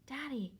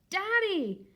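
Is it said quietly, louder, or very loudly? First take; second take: quietly; louder. First: It is said very quietly. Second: It is said a little louder.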